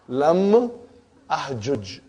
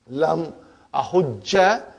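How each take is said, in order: First: The two j sounds are split, ending without a vowel. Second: The j sounds merge into one, ending with a vowel. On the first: "You can break the idgham" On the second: "that fatha I gave temporary so that I can pronounce it"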